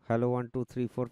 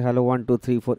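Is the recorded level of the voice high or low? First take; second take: low; high. First: The recording level is low, near minus eighteen. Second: The recording level is high, near minus six. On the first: "sound কার্ডের gain একটু কমিয়ে দিলাম" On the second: "minus six এর কাছাকাছি চলছে"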